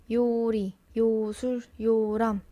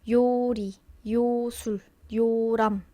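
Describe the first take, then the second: Both takes have the same delivery.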